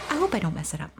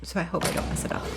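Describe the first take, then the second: First: Said in the usual way. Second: Fast breathy whisper "so I hope I don't mess it up". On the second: Real, not acted. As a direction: whisper it quickly to yourself.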